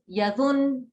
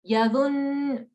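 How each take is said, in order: First: The n sound is short and light. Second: The n sound is pressed and held longer. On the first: The speaker calls it wrong. "that's a, a regular noon" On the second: The speaker calls it right. "this is a double noon. It's a noon mushaddad"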